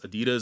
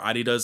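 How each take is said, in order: First: It is pronounced the non-European way. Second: It is pronounced the European way.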